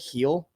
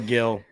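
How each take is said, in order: First: The name starts with an H sound. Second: The name starts with a hard G sound. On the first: This is how the player says his own name. "Gil pronounces heel" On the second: This follows the written spelling. "That's how it's spelled"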